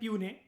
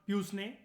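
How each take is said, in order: First: The word is said without an s sound. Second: The word is said with an s sound. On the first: The speaker calls it right. "इसको pronounce करते हैं प्यूने" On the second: The speaker calls it wrong. "Not प्यूसने, ऐसा नहीं बोलते"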